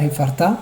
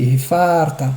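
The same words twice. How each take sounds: First: "Hefarta" rising onto a stressed "ta"; wrong final stress. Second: "Hefarta" with long held "fa"; penultimate stress. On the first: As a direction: hurry "far", accent "ta" in "Hefarta". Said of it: "c'est pas Hefarta". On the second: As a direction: stretch "far", let "ta" fall in "Hefarta". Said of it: "c'est Hefarta". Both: Shown as a demonstration.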